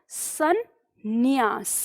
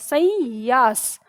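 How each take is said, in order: First: A doubled 'n' sound comes before the 'y'. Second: Only a nasalized vowel comes before the 'y'. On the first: The speaker calls it right. "सन अनुस्वार भी है और आधा न भी है" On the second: The speaker calls it wrong. "इसका उच्चारण संयास हो जाएगा, संयास। तो ये गलत हो गया"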